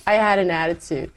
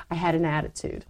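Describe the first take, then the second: First: I punched, falling tune on attitude; I leaned on first, then falling; stress on I. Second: Quiet confession. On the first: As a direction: hit I in I had an attitude. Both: Shown as a demonstration.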